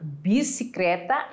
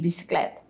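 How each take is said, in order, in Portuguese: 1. Ela é dita de forma coloquial, com marca social. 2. Ela é dita da forma padrão. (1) "em vez de bicicleta" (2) "em vez de"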